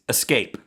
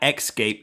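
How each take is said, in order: First: The word starts with an 'es' sound. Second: The word starts with an 'ex' sound. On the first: The speaker calls it right. "There's no X" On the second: The speaker calls it wrong. "it's not escape"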